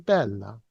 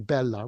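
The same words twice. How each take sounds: First: The important syllable is emphasized and lengthened. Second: Both syllables are said evenly and flatly. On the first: The speaker calls it right. "we say bella" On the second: The speaker calls it wrong. "We don't say bella"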